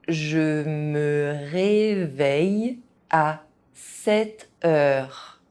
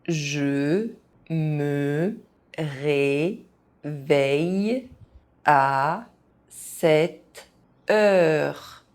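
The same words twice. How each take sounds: First: It is said at an ordinary speaking pace. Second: It is said very slowly, syllable by syllable. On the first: This is the pace learners should use. "at a normal pace" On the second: Each syllable can be followed. "very slowly"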